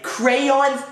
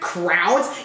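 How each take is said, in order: First: The word is said with two syllables. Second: The word is squeezed into one syllable. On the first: The speaker calls it wrong. "Crayons sound stupid" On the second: The speaker calls it right. "that is how I say it"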